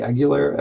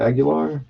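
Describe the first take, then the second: First: Aguilar ending in "-ler"; anglicized surname pronunciation. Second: Aguilar ending in an open "-lar"; alternative surname pronunciation. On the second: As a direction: say Aguilar as AG-yuh-LAR, pitched higher. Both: Real, not acted. Tries two pronunciations of surname.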